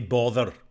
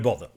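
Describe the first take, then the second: First: The final R is strongly pronounced. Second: The final R is not pronounced. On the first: "Very strong R at the end" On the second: "an English person might say"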